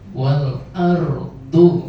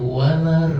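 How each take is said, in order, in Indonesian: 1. Hentian glotal memisahkan kedua kata. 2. Kedua kata menyatu tanpa hentian glotal.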